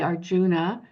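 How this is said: It is said with English-speaker stress and sounds. The speaker calls it wrong. "we might say Arjuna"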